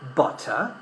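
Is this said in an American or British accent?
British. The middle T is a clear T sound. "in British English we would say"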